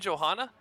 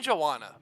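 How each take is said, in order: First: The name is said with an H sound. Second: The name is said without an H sound. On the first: This is how the second caster says the name. "you say Johanna" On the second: This is how the first caster says the name. "I say Joanna"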